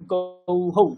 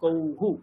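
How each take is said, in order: First: The visarga is sounded as 'hau' after the vowel. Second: The visarga is sounded as 'hu' after the vowel. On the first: The speaker calls it wrong. "গৌ এর পরে বিসর্গ লাগালে কি উচ্চারণ হতো" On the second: The speaker calls it right. "এখানে উকার হয়ে যায়"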